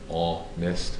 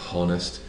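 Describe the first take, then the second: First: The word begins with a vowel, H silent. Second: The word begins with an audible H sound. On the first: The speaker calls it right. "the H in honest is silent. It sounds like honest" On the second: The speaker calls it wrong. "not honest"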